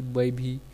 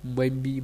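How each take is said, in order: First: Said in the usual way. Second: भी said as "bee", no breath on the b; deaspirated dialect form. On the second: Shown as a demonstration. Lecturer showing Kauravi speech, भी deaspirated to "bee". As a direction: drop the aspiration in भी. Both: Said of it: "महाप्राण के अल्पप्राण कर देने".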